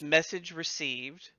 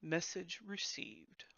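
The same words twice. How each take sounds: First: Slow, haughty bard voice; snooty bardic voice. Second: Slow, soft, haughty bird voice; snooty voice. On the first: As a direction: deliver it like a pompous bard. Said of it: "I'll say snooty bardic voice". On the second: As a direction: say it like a stuck-up bird. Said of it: "it kinda says in a snooty voice". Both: Acted.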